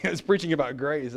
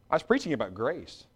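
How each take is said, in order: First: Chuckling through the line; amused laughing repeat. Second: Said in the usual way. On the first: Shown as a demonstration. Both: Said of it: "I wasn't angry".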